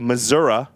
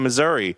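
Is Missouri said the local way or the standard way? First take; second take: local; standard. First: It is said the way locals supposedly say it. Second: It is said in the ordinary, standard way.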